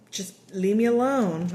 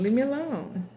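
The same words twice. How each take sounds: First: Said in the usual way. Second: Heard message. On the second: Shown as a demonstration. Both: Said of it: "I'm hearing".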